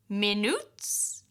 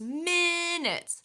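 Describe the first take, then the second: First: The stress falls on the second syllable. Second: The stress falls on the first syllable. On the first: The speaker calls it wrong. "if I'm putting my Spanish stress on an English word, it would sound like minutes. That is very hard to understand" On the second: The speaker calls it right. "You can hear the stress. It's minutes"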